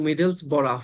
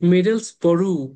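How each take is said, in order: First: The word ends with an 'uff' sound. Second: The word ends with an 'oo' sound. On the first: "ও ইউ জি এইচ যদি এনাফের মতন হইতো" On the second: "যদি থ্রু এর মতন হইতো"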